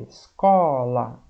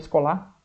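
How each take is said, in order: First: The stress is on the middle syllable. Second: The stress is on the last syllable. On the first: The speaker calls it right. "O có é mais forte" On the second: The speaker calls it wrong. "não é o lá mais forte? Não, senão ia ficar"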